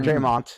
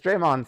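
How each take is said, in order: First: The name ends with a t sound. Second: The name ends with a d sound. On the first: The speaker calls it wrong. "It's not Draymonte or Draymont" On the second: The speaker calls it right. "because Draymond sounds right"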